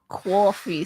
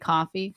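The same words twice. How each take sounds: First: It is said with a New York accent. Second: It is said with a Seattle accent. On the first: "None of this coffee stuff" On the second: "That's where you say coffee"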